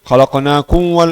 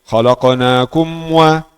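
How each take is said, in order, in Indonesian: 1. Bunyi m kabur, bibir belum tertutup rapat. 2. Bunyi m jelas, bibir tertutup rapat. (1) "buka dua bibir, tidak tutup" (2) "harus tutup dulu"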